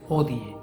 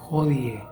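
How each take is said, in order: First: It begins directly with the vowel. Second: It begins with a soft breathy consonant. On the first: "sin el sonido de la J" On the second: "los alemanes la pronuncian como una J muy suave"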